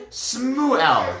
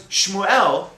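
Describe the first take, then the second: First: "Smuel" opening on a plain s. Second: Said in the usual way. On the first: Shown as a demonstration. River people call someone by name, "Smuel" with s for sh. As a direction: replace the sh with s in "Smuel". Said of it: "they would call them". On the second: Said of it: "if somebody's name was".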